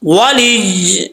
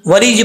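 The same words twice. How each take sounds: First: "ولی" very slowly, final y pressed and held; stressed doubled ya. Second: "ولی جی" quickly with a light ending; no stress or hold on the end of "ولی جی"; doubling dropped. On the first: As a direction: lean on the closing y of "ولی". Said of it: "ایسے پڑھیں گے". ("ولی" یا پر شد کے ساتھ) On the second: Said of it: "ایسا نہیں کرنا". ("ولی جی" شد کے بغیر، غلط ادائیگی) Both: Shown as a demonstration.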